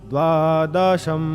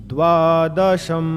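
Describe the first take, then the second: Both takes have the same delivery.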